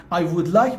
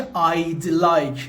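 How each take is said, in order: First: Said in the usual way. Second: "I'd like" with "would" cut down to a d; contracted form. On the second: Shown as a demonstration. Teacher showing students the short form, "I'd like" said contracted. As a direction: run "I" and "d" together in "I'd like".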